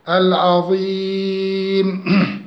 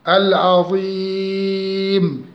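No difference in how they are said.

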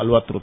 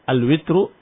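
First: The vowel after the w is a. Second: The vowel after the w is i. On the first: "atau dengan fathah" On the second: "bikasir ra"

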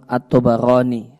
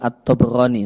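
First: The b is followed by an a vowel. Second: The b has no vowel after it. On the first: The speaker calls it right. "ba'nya di fathah" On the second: The speaker calls it wrong. "Bukan di sukun. Bukan At-Tabarani"

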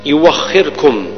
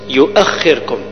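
First: A w sound replaces the glottal stop. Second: A glottal stop is pronounced before the vowel. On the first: This is the form used in the Warsh reading. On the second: This is the original base form.

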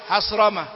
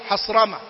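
No difference in how they are said.

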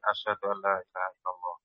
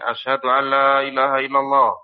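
First: The phrase is said softly. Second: The phrase is said loudly. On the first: "Kemudian dia pelan lagi" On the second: "Kemudian keras lagi"

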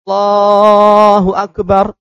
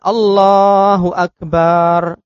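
First: No vowel in Akbar is drawn out. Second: The ba syllable of Akbar is drawn out. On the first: The speaker calls it right. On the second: The speaker calls it wrong.

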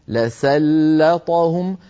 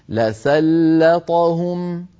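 First: The l and s sound light and thin. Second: The l and s sound light and thin.

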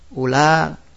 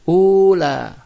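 First: The first vowel is kept short. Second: The first vowel is drawn out long. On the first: The speaker calls it right. "Kita baca pendek" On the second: The speaker calls it wrong. "tidak boleh dibaca mat menjadi ula"

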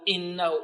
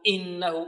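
First: The opening glottal stop is jabbed out hard. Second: The opening glottal stop is jabbed out hard.

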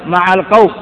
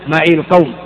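First: The first word ends in an a vowel. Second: The first word ends in an i vowel. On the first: "يجوز الفتح مع القوم" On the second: "على لغة السكون ... التخلص منهما من التقاء الساكنين بالكسرة"

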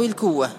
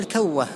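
First: The first vowel is 'u'. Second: The first vowel is 'a'. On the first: "وتضم" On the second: "تفتح الكاف"

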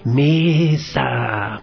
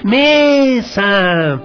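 First: The word is said softly. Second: The word is said even more loudly. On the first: "digamos con poquita fuerza" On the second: "digamos con más fuerza"

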